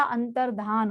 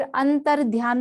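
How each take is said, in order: First: अंतर्धान with plain "dhaan", no glide; correct form. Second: अंतर ध्यान with a "y" glide in ध्यान; wrong form. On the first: Teacher giving the right word, अंतर्धान with plain "dh". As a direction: drop any "y" from अंतर्धान. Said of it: "अंतर्धान होता है". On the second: Teacher citing the error, अंतर ध्यान with "dhy" sound. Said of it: "अंतर ध्यान नहीं होता". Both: Shown as a demonstration.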